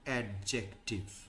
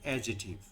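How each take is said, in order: First: A d sound is heard before the j. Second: No d sound is heard before the j. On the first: "শব্দটা হচ্ছে জে" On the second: "খুব short করে যদি কেউ বলতে চায় তাহলে সিটা সাইলেন্ট থাকে"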